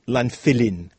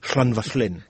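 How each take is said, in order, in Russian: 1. Слово начинается с обычного звука L. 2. Слово начинается с глухого шипящего L. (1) "Они все говорят «ланголен» или «ланфилин»" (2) "Вместо того, чтобы говорить «шлангошлен» или «шланвашлен»"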